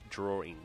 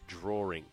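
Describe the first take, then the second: The two takes are said the same way.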